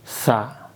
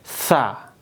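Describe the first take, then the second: No difference in how they are said.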